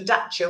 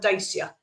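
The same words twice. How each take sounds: First: It is said in a foreign-sounding way. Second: It is said the way it is spelled. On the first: This is what the car is actually called. "called a Dacia" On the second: This is how the written name looks. "when it's spelt Dacia"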